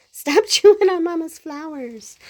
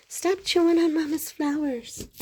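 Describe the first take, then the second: First: Loud, high, laughing scold; playful scolding. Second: Playful scolding. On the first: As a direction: scold the pet through a laugh. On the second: Scolding pet again. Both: Real, not acted.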